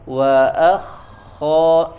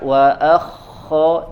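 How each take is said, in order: First: The kh sound is gentle and soft. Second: The kh sound is rough and harsh. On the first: The speaker calls it right. "Dia lembut suaranya" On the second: The speaker calls it wrong. "jangan kasar... jangan terlalu seperti itu"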